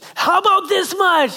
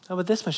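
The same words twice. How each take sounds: First: It is said in a changed, special voice. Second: It is said in his plain, ordinary voice.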